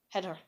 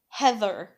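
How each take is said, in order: First: The middle th sound is left out. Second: The middle th sound is clearly pronounced. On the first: "they can't get out the th" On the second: "instead of saying Heather"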